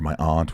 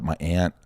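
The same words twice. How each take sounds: First: "aunt" with a long open ah vowel; "aunt" like "ahnt". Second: "aunt" with the short flat a of "cat"; "aunt" like "ant". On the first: Speaker correcting the word for a relative, "aunt" said as "ahnt". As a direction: say "aunt" with the a of "father". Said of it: "what do you say?". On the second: Speaker unsure which word to use, "aunt" said like "ant". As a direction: say "aunt" to rhyme with "pant". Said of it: "or my aunt, what do you say?". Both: Shown as a demonstration.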